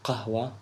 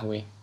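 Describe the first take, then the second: First: The word begins with a q sound. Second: The word begins without a q sound. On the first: This is the classical form of the word. "Maybe you name it in classical as qahwa" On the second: This is the everyday spoken form of the word. "So ahwe means coffee"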